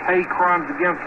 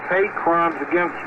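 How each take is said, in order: Both takes have the same delivery.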